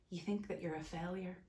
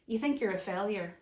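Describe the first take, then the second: First: Much softer, emotion catching; choked up. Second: Said in the usual way. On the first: Real, not acted. Telling men the lie they live under, choked up. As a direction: hold back tears on You think that you're a failure. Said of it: "Ah, I'm getting emotional". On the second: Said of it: "that's the truth coming up".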